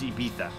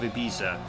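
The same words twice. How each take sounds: First: The z is said as a th sound. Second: The z is said as a z sound.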